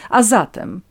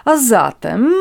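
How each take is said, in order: First: "zatem" louder with a falling tune; impatient prompt. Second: "zatem" raised and loud, tune rising; irritated echo. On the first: Natalia presses countess to continue, "A zatem" falling impatiently. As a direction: close "A zatem" firmly downward. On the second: Countess, annoyed by Natalia's tone, echoes "A zatem" rising. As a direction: throw "A zatem" back with an upward lilt. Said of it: "zdenerwował ton i słowa Natalii". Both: A narrator's reading.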